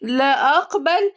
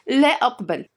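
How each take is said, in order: First: Slow, higher mocking echo of "لا أقبل"; stretched, rising, sarcastic "لا أقبل". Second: Firm, irritated "لا أقبل"; "لا أقبل" said at normal pace, falling, annoyed; annoyed refusal. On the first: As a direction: throw it back as a drawn-out question. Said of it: "ردت مامتها بسخرية". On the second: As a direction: refuse flatly in a huff. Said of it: "نفخت وقالت بضيق". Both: A narrator's reading.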